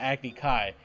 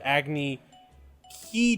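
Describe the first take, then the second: First: The last word ends in an 'eye' vowel. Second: The last word ends in an 'ee' vowel. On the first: The speaker calls it right. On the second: The speaker calls it wrong.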